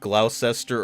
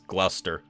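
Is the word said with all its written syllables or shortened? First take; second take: full; shortened. First: Every written syllable of the word is sounded out. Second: The word is shortened to two syllables. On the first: The speaker calls it wrong. "what you would think would be pronounced" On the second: The speaker calls it right. "is Gloucester"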